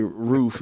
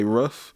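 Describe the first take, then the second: First: It is said in the speaker's own accent. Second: It is said in a Wisconsin accent.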